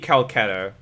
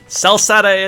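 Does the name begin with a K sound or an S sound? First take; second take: K sound; S sound. First: The name begins with a hard K sound. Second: The name begins with a soft S sound. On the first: The speaker calls it wrong. "it's a hard C, so pronounced as you would a K" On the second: The speaker calls it right. "rather than the S"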